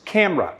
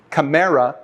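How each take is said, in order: First: Camera as two syllables, CAM-ra; stress on first syllable. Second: Camera mispronounced as ca-MER-a; stress on second syllable. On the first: Teacher showing correct pronunciation, camera stressed on the first of two syllables. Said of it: "stress on the first of two syllables". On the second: Teacher showing a common mispronunciation, camera stressed on the second syllable. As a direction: camera in three syllables, middle one stressed. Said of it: "a commonly pronounced mispronunciation of the word". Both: Shown as a demonstration.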